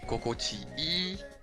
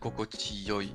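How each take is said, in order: First: The ending is pronounced as a long 'ii'. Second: The ending is pronounced as 'yoi'. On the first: This is the common modern form. "E nowadays" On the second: This older form is still sometimes used. "people still sometimes pronounce kokochiyoi"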